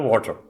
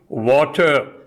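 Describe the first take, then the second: First: The word is garbled and hard to make out. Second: The word is pronounced clearly and distinctly. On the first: The listener cannot grasp what is meant. The speaker calls it wrong. "I say in a garbled manner" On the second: The listener immediately understands the idea. The speaker calls it right. "Now I pronounce it correctly"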